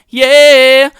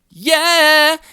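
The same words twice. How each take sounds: First: The voice is plain and unprocessed. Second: The voice is brighter, sweeter and compressed. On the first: "this is my voice just straight uh, through the microphone and then into the audio interface" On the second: "if I activate the tone switch, it sounds like this"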